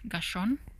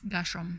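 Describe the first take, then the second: First: The name ends with an n sound. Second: The name ends with an m sound. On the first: The speaker calls it wrong. "I'm saying Gershon with an N" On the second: The speaker calls it right. "it's an M"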